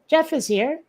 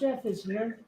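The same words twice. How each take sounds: First: It is said warmly, with more enthusiasm. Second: It is said flatly, with little enthusiasm. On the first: The speaker calls it right. "but still" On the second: The speaker calls it wrong. "Which sounded a bit less enthusiastic than perhaps I meant it"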